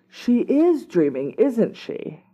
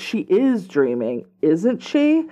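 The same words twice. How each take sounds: First: It sounds like a sudden realization. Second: It sounds like a worried, uncertain question.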